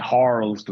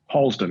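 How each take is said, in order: First: The R is pronounced strongly, American style. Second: The R is soft, British style.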